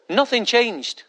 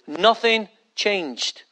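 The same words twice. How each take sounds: First: Said in the usual way. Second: "Nothing changed" drawn out very slowly, stress on "Nothing"; slow emphatic repeat. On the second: Real, not acted. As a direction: lean hard on "Nothing", slowly.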